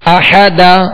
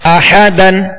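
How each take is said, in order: First: The word ends with a long a vowel. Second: The word ends with an n sound. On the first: The reader stops on this word. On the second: The reading continues without stopping.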